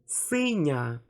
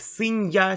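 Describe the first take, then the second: First: The n is soft, blending into one vowel sound. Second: The n is followed by a separate y sound. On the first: The speaker calls it right. "we pronounce it like one sound, and these three sounds also soften the consonant" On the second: The speaker calls it wrong. "I don't pronounce like"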